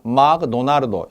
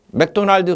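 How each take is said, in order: First: It is said with a Japanese-style pronunciation. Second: It is said with an English-style pronunciation.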